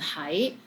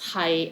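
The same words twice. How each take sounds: First: The syllable is said in the second tone. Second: The syllable is said in the sixth tone. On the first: It means to be somewhere. "this one is in second tone" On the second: It means to be. "Hi is in six tones"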